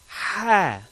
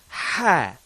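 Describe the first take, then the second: First: The h sound is forceful with lots of breath. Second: The h sound is forceful with lots of breath.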